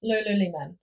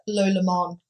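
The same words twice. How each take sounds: First: Said in the usual way. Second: "Lululemon" squashed to loo-luh-mon, the lee dropped; sister's mispronunciation. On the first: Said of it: "or as my sister likes to pronounce it". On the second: Retold or imitated. Mocking how her sister says the brand, "Lululemon" as loo-luh-mon. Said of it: "as my sister likes to pronounce it".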